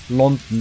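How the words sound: The final vowel is reduced, English style. "Das O am Ende wird eigentlich gar nicht so ausgesprochen. London, sagt man eigentlich"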